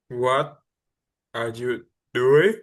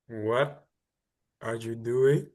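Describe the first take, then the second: First: It is said louder, with more panic. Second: It is said more softly, with less panic.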